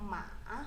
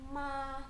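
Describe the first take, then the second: First: The pitch dips down then rises. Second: The pitch stays high and level. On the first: It means horse. "nada ketiga turun lalu naik" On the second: It means mother. "nada satu itu tinggi dan datar"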